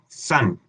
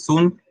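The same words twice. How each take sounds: First: The vowel sounds between Spanish a and o. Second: The vowel sounds like a Spanish u. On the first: The speaker calls it right. "Es entre, entre una A y una O" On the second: The speaker calls it wrong. "no decimos sun"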